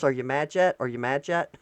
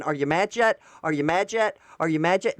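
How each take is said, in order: First: Lightly mimicked taunt with a rising end, a bit lower; mock her teasing question; imitating her. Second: Said in the usual way. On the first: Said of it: "just her going like this". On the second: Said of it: "I should clip her".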